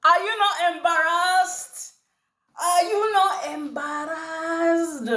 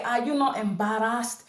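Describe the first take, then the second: First: Put-on Nigerian accent, high and slow. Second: Said in the usual way. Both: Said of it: "In my Nigerian accent".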